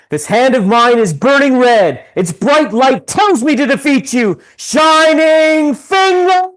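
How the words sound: It is said in Domon's character voice.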